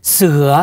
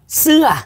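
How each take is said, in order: First: "Seha" pitched low, meaning tiger. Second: "seha" starting high and falling. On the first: Thai speaker showing tones differ, low tone. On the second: Thai speaker showing tones differ, high falling tone. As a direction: hit "seha" high then let it drop. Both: Shown as a demonstration. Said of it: "Intonasi beda".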